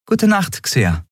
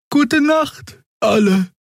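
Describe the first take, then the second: First: Higher, brisker goodnight; quick reply from the captain; Endriel's goodnight. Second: Very high, slow goodnight; sleepy farewell to the crew; Xea's goodnight. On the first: Endriel antwortet. (etwas höher, knapp: Gute Nacht) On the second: Xea verabschiedet sich. (sehr hoch, müde: Gute Nacht) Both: Acted.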